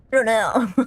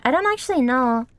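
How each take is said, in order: First: "know" bent into a drawn "naow"; odd pronunciation. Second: Said in the usual way. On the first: Real, not acted. Streamer unsure of own motion sickness, "know" twisted into "naow". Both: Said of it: "why I said it like that".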